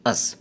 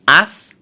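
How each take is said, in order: First: "us" as a short weak vowel, mouth almost closed; weak us, barely open. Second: "us" with a short open a, mouth wide; strong us, open mouth. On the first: Teacher contrasting the two forms of us, weak. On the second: Teacher contrasting the two forms of us, open. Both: Shown as a demonstration. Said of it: "পার্থক্যটুকু feel করুন".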